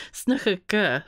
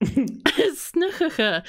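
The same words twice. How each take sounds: First: Said in the usual way. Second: "snigurka" slow and high through a laugh; drawn-out, laughing "snigurka"; giggling attempt. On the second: Real, not acted. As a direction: try to get "snigurka" out while giggling. Giggling attempt, then restates it.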